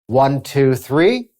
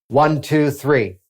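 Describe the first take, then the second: First: It rises at the end like a question. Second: It falls at the end like a statement.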